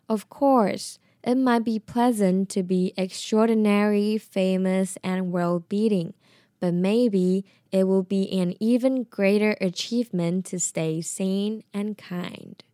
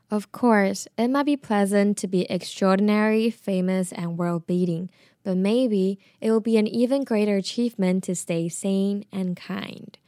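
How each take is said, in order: First: It is said slowly. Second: It is said at normal speed.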